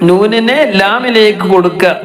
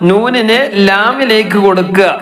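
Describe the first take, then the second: No difference in how they are said.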